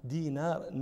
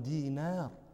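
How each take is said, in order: The two takes are said the same way.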